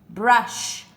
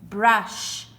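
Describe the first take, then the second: No difference in how they are said.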